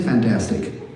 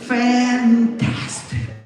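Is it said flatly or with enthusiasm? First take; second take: flatly; with enthusiasm. First: It is said flatly, without feeling. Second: It is said with lively enthusiasm.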